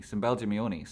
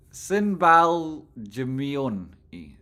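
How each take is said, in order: First: Said in the usual way. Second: "Sinbal Jumioni" slow, drawn out syllable by syllable; careful pronunciation. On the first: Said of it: "I'm gonna try and pronounce that name". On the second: Shown as a demonstration. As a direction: sound out "Sinbal Jumioni" slowly. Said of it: "I'll try and pronounce that".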